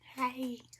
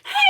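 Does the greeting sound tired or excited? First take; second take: tired; excited. First: The greeting sounds sleepy and tired. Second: The greeting sounds thrilled and excited.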